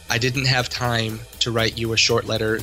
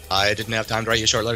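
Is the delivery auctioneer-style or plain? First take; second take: plain; auctioneer. First: It is spoken at a normal, plain pace. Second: It is rattled off fast like an auctioneer.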